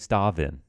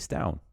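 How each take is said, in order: First: The name is said with an English-style pronunciation. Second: The name is said with a Danish-style pronunciation. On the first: The speaker calls it wrong. "instead of saying" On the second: The speaker calls it right.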